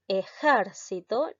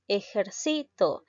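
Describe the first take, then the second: First: The stress is on the second syllable. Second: The stress is on the third syllable. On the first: It is a noun. "la sílaba tónica recae en la sílaba ger" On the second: It is a verb. "La mayor fuerza de voz recae en la sílaba sí"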